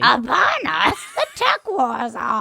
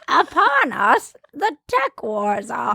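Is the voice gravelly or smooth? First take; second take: gravelly; smooth. First: A Yoda voice that is more gravelly. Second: A Yoda voice that is not very gravelly.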